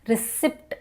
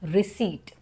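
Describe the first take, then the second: First: The p sound is pronounced in the word. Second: The p sound is silent in the word. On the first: The speaker calls it wrong. "This is wrong" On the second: The speaker calls it right. "Right pronunciation is receipt"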